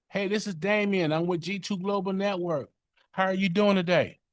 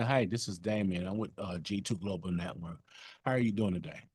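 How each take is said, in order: First: Much higher and louder, bright sales opener; elevated voice. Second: Monotone voice. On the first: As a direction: lift the voice way up like an eager salesman. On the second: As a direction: let the energy drop, flat and uninterested. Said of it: "Opposed to saying". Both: Shown as a demonstration.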